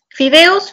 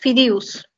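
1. Las vocales se dicen como e y o claras. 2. La e y la o suben hacia la i y la u.

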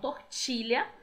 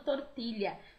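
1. Ela é dita com sotaque brasileiro. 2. Ela é dita com sotaque espanhol. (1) "Normalmente as pessoas falam tortilha, né? Por causa do nosso sotaque brasileiro" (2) "Ela continuou se chamando tortilla"

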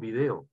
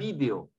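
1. El acento está en la segunda sílaba, de. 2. El acento está en la primera sílaba, vi. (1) "Los peruanos decimos video" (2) "En España dicen video"

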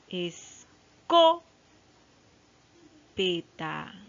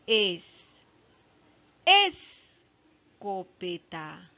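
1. Está en la segunda sílaba, co. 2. Está en la primera sílaba, es. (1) "No, tampoco está ahí" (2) "No, ahí no está"

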